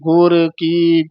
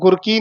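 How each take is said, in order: First: The two words are said as separate words. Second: The two words are run together as one. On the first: The speaker calls it right. "ਇਹ ਵੱਖਰੇ ਬੋਲਨੇ ਆ ਪਦ" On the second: The speaker calls it wrong. "ਇਹਨੂੰ ਗੁਰ ਕੀ ਨਹੀਂ ਕਹਿਣਾ"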